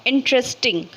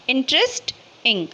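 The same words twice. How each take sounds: First: Said in the usual way. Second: interesting split as "interest", pause, "इंग"; broken into syllables. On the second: Shown as a demonstration. Teacher giving another syllable example, interesting broken before "इंग". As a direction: say interesting in parts, detaching the final "इंग". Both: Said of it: "इसको हम तोड़ के बोल सकते हैं".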